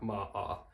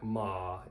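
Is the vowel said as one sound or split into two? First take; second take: two sounds; one sound. First: The vowel is split into two separate sounds. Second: The vowel is one continuous sound. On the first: The speaker calls it wrong. "You're not like" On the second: The speaker calls it right. "is obviously one sound"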